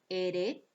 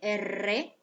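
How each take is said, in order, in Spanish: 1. La r es un toque simple y rápido. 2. La r es una vibrante múltiple, con trinado. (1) "el fonema vibrante simple" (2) "vibrante múltiple"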